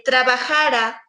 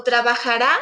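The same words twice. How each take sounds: First: "trabajara" stressed on JA; stress on penultimate syllable. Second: "trabajará" stressed on the final RÁ; stress on last syllable. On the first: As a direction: hit the JA in "trabajara", final ra unstressed. ("trabajara" con énfasis en JA) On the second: ("trabajará" con énfasis en la RÁ final) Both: Shown as a demonstration. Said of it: "tiene que ver con la acentuación".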